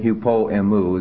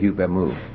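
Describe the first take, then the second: First: The first word keeps its final o sound. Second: The first word loses its final o sound. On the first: "Instead of saying hupo emu" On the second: "they just say hup emu"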